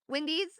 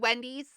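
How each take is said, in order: First: The first vowel sounds like the one in windy. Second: The first vowel sounds like the one in when. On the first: "it sounds like a windy day" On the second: "as opposed to like when"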